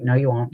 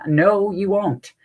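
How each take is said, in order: First: Said in the usual way. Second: Higher, stretched-out insistent refusal; emphatic refusal. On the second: Retold or imitated. Mom overruling uncle's tarantula promise, emphatically insistent. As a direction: drag out each word to shut it down.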